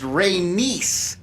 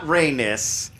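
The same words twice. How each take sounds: First: The name ends with a 'niece' sound. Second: The name ends without a 'niece' sound. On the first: The speaker calls it right. "it's pronounced Rhaenys, ... Y S is niece" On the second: The speaker calls it wrong. "not Rhaenys"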